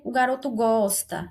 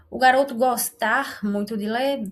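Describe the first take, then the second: First: Said in the usual way. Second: "gostar" stressed on the last syllable, R sounded; deliberately wrong "gostar" in place of the conjugated verb; incorrect infinitive. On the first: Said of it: "se eu falasse assim". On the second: Shown as a demonstration. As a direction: say "gostar" with a clear final R. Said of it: "perceba que fica incorreto".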